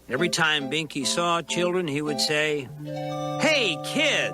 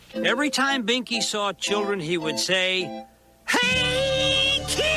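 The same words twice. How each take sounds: First: It is read flatly, without emotion. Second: It is read with lively, clownish emotion.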